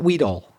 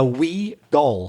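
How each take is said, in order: First: The two words are run together quickly. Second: The two words are said slowly and separately. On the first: "people say it quickly because it's a collocation"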